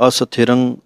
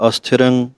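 The two takes are said the same way.

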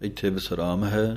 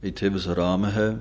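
Both takes have the same delivery.

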